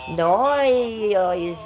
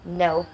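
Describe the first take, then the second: First: A drawn-out, many-vowel Australian 'no'. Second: A short one-syllable American 'no'. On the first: "The Australians, they get about seventeen syllables in there" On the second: "American will say no. One syllable"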